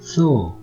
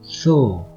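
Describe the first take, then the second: First: The first consonant sounds like English th. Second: The first consonant sounds like English th.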